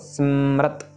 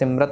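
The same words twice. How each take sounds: First: The first syllable is nasalized through the nose. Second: The first syllable is plain, without nasalization. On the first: The speaker calls it right. "से नाक के साथ आवाज़ें चाहिए" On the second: The speaker calls it wrong. "सिमरत नहीं कहना इसको"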